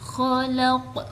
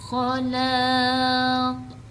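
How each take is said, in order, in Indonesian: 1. Vokalnya pendek dan huruf q di akhir memantul. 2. Vokal akhirnya dipanjangkan. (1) "tetap dibaca pendek ketika waqaf dengan dipantulkan"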